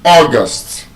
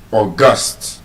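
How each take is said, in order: First: The stress is on the first syllable. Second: The stress is on the second syllable. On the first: The eighth month of the year. "The month is August, first syllable" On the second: Very important or special. "as an adjective, which means very important or special, it is stressed on the second syllable"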